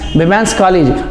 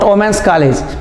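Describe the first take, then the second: First: The first vowel sounds like 'ee'. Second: The first vowel sounds like 'oh'. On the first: The speaker calls it right. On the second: The speaker calls it wrong.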